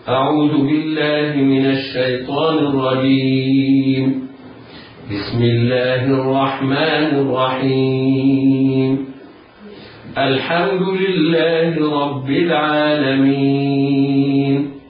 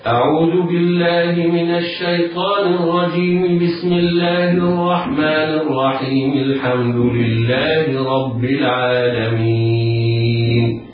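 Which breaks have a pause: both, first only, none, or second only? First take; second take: both; none. First: There are pauses after both of the first two phrases. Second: All three phrases run together without any pause. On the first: "أن يقف على الاستعاذة ويقف على البسملة ويبدأ بأول السورة" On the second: "وصل الاستعاذة بالبسملة ووصل البسملة بأول السورة"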